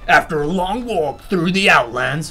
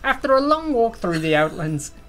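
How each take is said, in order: First: It is read in a dramatic movie-trailer voice. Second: It is read in an attempted Irish accent. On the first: "This this is movie trailer voice" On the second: "That's like not quite Irish"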